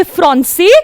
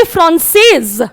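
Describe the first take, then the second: First: फ्रांसे with silent final s, ending on e; masculine, no s sound at the end of फ्रांसे; masculine form. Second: फ्रांसेज with a clear z sound at the end; feminine, voice the final z in फ्रांसेज; feminine form. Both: Shown as a demonstration. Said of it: "थोड़ा सा pronunciation में difference है ना".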